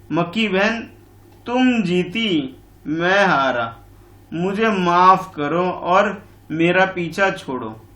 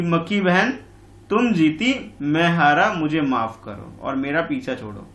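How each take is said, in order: First: Slow, weary lion pleading to be left alone; fed-up lion. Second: Lightly voiced weary lion, slowed down; a tired, annoyed plea; fed-up lion. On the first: Acted. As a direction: drag it out like a worn-out lion. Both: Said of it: "परेशान होकर के, ऊब कर बोल रहा है".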